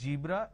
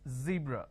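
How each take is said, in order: First: The word begins with a j sound. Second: The word begins with a z sound. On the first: The speaker calls it wrong. "It's not zebra" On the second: The speaker calls it right. "it's zebra. It's a z sound"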